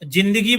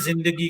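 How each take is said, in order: First: The word begins with a j sound. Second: The word begins with a z sound. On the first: The speaker calls it wrong. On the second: The speaker calls it right.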